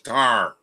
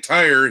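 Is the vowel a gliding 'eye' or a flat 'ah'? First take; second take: flat ah; gliding eye. First: The vowel is a flat 'ah', like tar. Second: The vowel glides like 'eye'. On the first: "he says tar" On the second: "He doesn't say tire"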